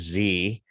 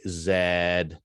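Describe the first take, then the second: First: The letter is said the American way, zee. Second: The letter is said the Canadian way, zed.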